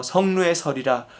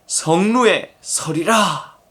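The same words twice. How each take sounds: First: Said in the usual way. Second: 성루에 서리라 drawn out very slowly; slow emphasis. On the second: Shown as a demonstration. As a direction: stretch each word of 성루에 서리라. Emphatic repeat of scripture phrase. (성루에 서리라를 아주 느리게 강조)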